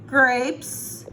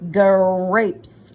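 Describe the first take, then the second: First: Said in the usual way. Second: "grapes" said loud, the opening g and r pulled apart and hit hard; onset stressed. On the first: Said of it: "One, two, three". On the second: Shown as a demonstration. Teacher sounds out the start for the child, onset stressed. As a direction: push out the g-r start of "grapes" so it stands out. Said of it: "listen for the first two sounds".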